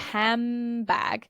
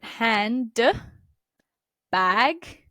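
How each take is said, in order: First: A bilabial sound comes before the b. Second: An alveolar d comes before the b. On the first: "you're already in the bilabial position" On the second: "you need to move from an alveolar position, that's the ridge behind your teeth, for d, to b"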